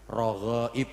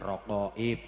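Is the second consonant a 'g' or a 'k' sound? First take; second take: g; k. First: The second consonant is a 'g' sound. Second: The second consonant is a 'k' sound. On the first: The speaker calls it right. "rogoib bukan rokoib" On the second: The speaker calls it wrong. "bukan rokoib"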